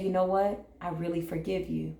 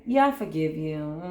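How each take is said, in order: First: Softer, heartfelt "I really forgive you"; genuine forgiveness. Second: Dismissive, hollow "Yeah, I forgive you"; insincere forgiveness. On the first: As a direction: open your heart as you say it. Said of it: "when you genuinely say". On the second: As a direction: brush it off without meaning it. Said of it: "there really is no genuine forgiveness in that". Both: Shown as a demonstration.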